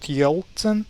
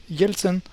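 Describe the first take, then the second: First: "Yeltsin" with a dark English L, YOLT-sin; mispronounced "Yeltsin", dark L in the first syllable; wrong dark L. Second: "Yeltsin" slowly, as YEL-tsin with a soft L; "Yeltsin" the Russian way, soft L; correct soft L. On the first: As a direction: say "Yeltsin" with a heavy, hard L. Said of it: "not Yeltsin". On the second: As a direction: draw out a softened "Yel" in "Yeltsin". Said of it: "but Yeltsin". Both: Shown as a demonstration.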